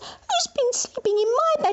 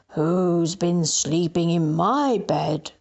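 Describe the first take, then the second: First: It is said in baby bear's voice. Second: It is said in Daddy Bear's voice.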